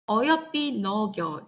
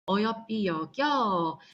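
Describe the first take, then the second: First: The second word begins with an n sound. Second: The second word begins with a y sound. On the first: This is the older form of the word. "여기는 니은이 그대로 있으니까" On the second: This is the modern form of the word. "지금은 얘가 여겨 역시 니은이 이응으로 바뀐 게 아니라 없어졌어"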